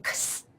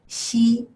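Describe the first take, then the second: First: It is said like the English letter name. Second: It is said as the Chinese syllable xi. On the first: The speaker calls it wrong. "you may want to say X" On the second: The speaker calls it right. "the correct way to pronounce it is Xi"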